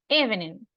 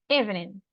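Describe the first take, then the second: Both takes have the same delivery.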